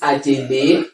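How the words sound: The name is said with Yoruba pronunciation. "And then in Yoruba, you can call it"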